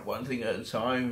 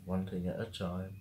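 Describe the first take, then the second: First: Said in the usual way. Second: Softly talking herself down; murmured to herself, settling her nerves; quiet self-reassurance. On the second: Real, not acted.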